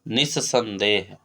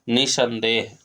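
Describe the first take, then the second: First: The middle s sound is held and doubled. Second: The middle s sound is short and single. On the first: The speaker calls it right. "शुद्ध शब्द होता है" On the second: The speaker calls it wrong. "अशुद्ध है"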